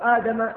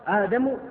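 First: The name ends with a final 'a' vowel. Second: The name ends with a final 'u' vowel. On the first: Adam is the one who lost the argument. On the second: Adam is the one who won the argument.

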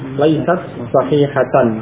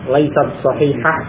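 First: The final word ends in a full 'atan'. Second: The final word ends in a short 'ah'. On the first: It is read with the full grammatical case ending. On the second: It is read in pause without the case ending.

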